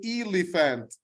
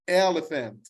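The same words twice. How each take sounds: First: The first vowel sounds like the letter name E. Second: The first vowel is a short sound. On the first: The speaker calls it wrong. "The vowel is E, but I don't say elephant" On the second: The speaker calls it right. "You pronounced elephant"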